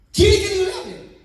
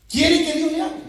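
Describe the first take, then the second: First: Quiere pushed hard, higher and louder, ending in a firm fall; preacher pressing the congregation, emphatic and loud; emphatic challenge. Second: Quiere asked with a rising, inviting lift; higher and louder, ending up on hable; rising question. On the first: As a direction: hammer the question home and drop hard on hable. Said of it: "repeated question, second take". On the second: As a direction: pose it as a real question, rising at the end. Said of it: "repeated question, first take". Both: Shown as a demonstration.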